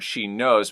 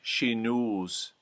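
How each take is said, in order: First: The vowel in knows is a plain O. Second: The vowel in knows is long, close to oo.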